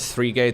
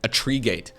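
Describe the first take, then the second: First: The word three starts with a th sound. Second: The word three starts with a plain t sound.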